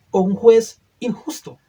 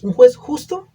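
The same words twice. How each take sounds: First: "injusto" leaned on, falling to close; stress on injusto. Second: "juez justo" asked with a loud rising question; stress on justo. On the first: Preacher offers the second choice with a firm fall. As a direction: land firmly on "injusto". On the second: Preacher asks the congregation, loud rising question. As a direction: lift and push "justo" upward. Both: Acted. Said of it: "Cómo tildaría usted a este juez".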